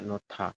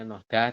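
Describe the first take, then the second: First: The middle consonant is a T sound. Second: The middle consonant is a D sound. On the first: The speaker calls it right. "tapi dibaca nota" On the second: The speaker calls it wrong. "Tulisannya noda"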